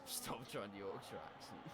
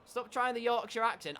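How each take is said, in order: First: Much lower and softer, under the breath; muttered self-reproach. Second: Raised, higher-pitched telling-off; mock scolding. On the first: Acted. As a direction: mutter it quietly to yourself. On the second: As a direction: pipe up to order a stop. Mock scolding, louder first take.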